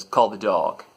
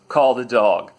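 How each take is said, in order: First: Said in the usual way. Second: Louder command passed along; relayed order. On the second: Retold or imitated. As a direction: pass the order firmly down the chain.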